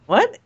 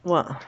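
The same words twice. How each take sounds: First: Sharp, high, rising What; stunned what, as if the news is absurd; surprised. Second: Said in the usual way. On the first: Real, not acted. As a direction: jump up in disbelief on What. Disbelief that Hoskins died.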